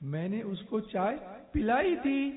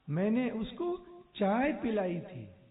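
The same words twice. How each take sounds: First: The stress falls on the word pilai. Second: The stress falls on the word chai. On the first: The serving really happened and cannot be denied. "मतलब वो इनकार नहीं कर सकता" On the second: It was tea that was served, not coffee. "क्या पिलाया था वो"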